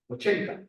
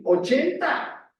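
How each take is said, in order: First: Said in the usual way. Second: Ochenta drawn out slowly, higher and louder, rising; emphatic repeat. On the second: Acted. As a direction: stretch out Ochenta and lift it for emphasis. Preacher repeats Moses' age.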